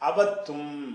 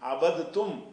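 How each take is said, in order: First: The d sound is dropped into a doubled t. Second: The d sound is pronounced before the t. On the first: The speaker calls it right. "அதை அப்படி வாசிக்கணும்" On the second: The speaker calls it wrong. "என்று சொல்லாம"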